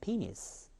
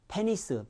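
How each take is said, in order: First: The first vowel sounds like 'ee'. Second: The first vowel sounds like 'eh'. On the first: The speaker calls it right. "이. 앞에가 셉니다. 강세 때문에" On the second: The speaker calls it wrong. "영어에는 에자 소리는 있지도 않습니다"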